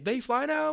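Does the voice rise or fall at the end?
rise. It is asked as a question, rising.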